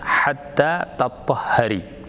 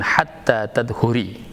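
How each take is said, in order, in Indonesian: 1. Kata terakhir lebih panjang, dengan h yang digandakan. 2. Kata terakhir pendek, dengan satu h. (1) "dan sebagiannya lagi uh, mengeja dengan hatta tatahhari" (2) "sebagian ulama uh, mengeja dengan hatta tadhuri"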